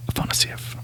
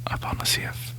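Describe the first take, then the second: No difference in how they are said.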